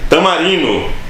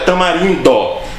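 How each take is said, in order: First: The d sound before the final vowel is dropped. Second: The d sound before the final vowel is pronounced. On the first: The speaker calls it wrong. "as pessoas falam tamarino" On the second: The speaker calls it right. "quando o certo é tamarindo"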